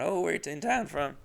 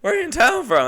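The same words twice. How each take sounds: First: High, soft polite question; mock small-talk lilt; imitating own small-talk voice. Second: Very high, loud mock small talk; hammed-up high-pitched self-parody; exaggerated own voice. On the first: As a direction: ask lightly, pitched up and quiet. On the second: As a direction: squeal the question in an overblown chatty voice. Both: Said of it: "That's what my voice sounded like".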